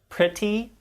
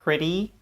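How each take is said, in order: First: The middle consonant is a crisp, true T. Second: The middle consonant is a soft, fast D-like tap. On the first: "many students will say words like" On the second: "Instead, we say"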